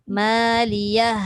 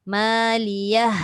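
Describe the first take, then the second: Both takes have the same delivery.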